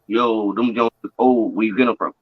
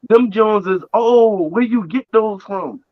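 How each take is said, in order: First: It sounds dismissive and mocking. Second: It sounds admiring and impressed.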